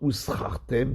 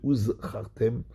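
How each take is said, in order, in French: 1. La deuxième consonne est un s. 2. La deuxième consonne est un z clair. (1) "pour ne pas entendre uschartem du mot sachar" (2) "on doit bien prononcer le zayin de uzchartem"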